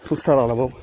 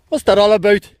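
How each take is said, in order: First: Said in the usual way. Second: Put-on Northern Ireland accent. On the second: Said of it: "in a Northern Ireland accent".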